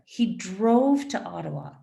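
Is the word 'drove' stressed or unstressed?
stressed. The stress falls on the word drove. The speaker calls it right. "the stress in the answer has to be linked to the stress in the question"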